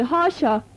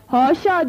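First: Said in the usual way. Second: Shouting. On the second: Acted. Fehmi Ağa, embarrassed before guests, cries out indignantly. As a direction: cry it out, offended. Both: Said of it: "diye bağırdı".

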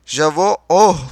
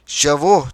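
First: Loud cry. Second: JAVOH with the vowel stretched; drawn-out word. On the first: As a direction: half-shout with weight on the final O. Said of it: "diye avazım çıktığı kadar bağırdım". ("oh" üzerine basarak, ölçülü bir bağırış) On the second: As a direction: draw out "Javoh" at length. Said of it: "uzun uzadıya". ("Javoh", uzun uzadıya) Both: A narrator's reading.

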